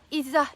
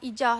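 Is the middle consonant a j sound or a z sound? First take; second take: z sound; j sound. First: The middle consonant is a z sound. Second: The middle consonant is a j sound. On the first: "Sebab tu penting kita sebut nama yang betul" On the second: "Sebab orang Jawa dia tak pandai sebut huruf Z"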